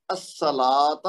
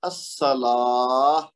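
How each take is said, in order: First: "الصلاۃ" with the final ta sounded; full unpaused form. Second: "الصلاۃ" with long drawn laa into h; stopping with ha. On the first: Teacher reads the last example before stopping, sounded ta. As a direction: say "الصلاۃ" as as-salaata, t audible. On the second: Teacher answers how it stops, long laa then h. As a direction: stretch "الصلاۃ" slowly and end as as-salaah. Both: Shown as a demonstration. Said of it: "جب وقف کریں گے تو کیا بنے گا".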